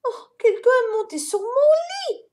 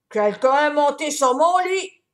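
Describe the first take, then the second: First: Very high, louder mama bear; mama bear chiming in, high. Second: Louder, booming papa bear; papa bear booming from the bedroom; big voice. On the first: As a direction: add it in a shocked mother's voice. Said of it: "ajouta Maman Ours". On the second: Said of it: "dit Papa Ours d'une grosse voix". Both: A narrator's reading.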